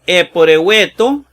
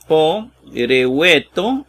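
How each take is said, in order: First: Said in the usual way. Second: Eporeueto spelled out slowly, syllable by syllable; slow Greek reading. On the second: Shown as a demonstration. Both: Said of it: "vean esa diferencia".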